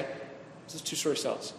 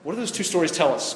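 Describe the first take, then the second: First: Voiceless, much softer repeat of the question; whispered repeat. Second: Said in the usual way. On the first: Shown as a demonstration. Pastor repeating his question to the group in a whisper. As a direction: drop to a whisper for effect.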